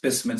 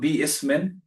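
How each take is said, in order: First: The two parts merge, with no separate i-syllable. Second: The two parts are said with a separate i-syllable. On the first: The speaker calls it right. "it's bismin" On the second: The speaker calls it wrong. "So it's not bi ismin"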